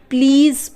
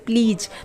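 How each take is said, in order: First: The word ends with a z sound. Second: The word ends with a j sound. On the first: The speaker calls it right. "प्लीज़ पढ़ेंगे, ज ज पढ़ेंगे" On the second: The speaker calls it wrong. "बहुत से लोग इसे प्लीज भी पढ़ते हैं, जो कि गलत है"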